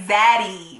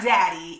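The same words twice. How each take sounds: First: "zaddy" said with a clear buzzing Z at the start; "zaddy", a Z in place of the D. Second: Said in the usual way. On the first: Shown as a demonstration. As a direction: lean on the Z of "zaddy". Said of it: "say zaddy with a Z". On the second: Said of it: "with a Z, not daddy".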